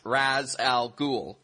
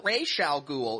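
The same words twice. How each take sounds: First: The first word has the Arabic pronunciation. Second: The first word has the cartoon-series pronunciation. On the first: The speaker calls it right. "the term in Arabic is pronounced Ra's al Ghul" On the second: The speaker calls it wrong. "it should be pronounced as Ra's al Ghul. No, it shouldn't"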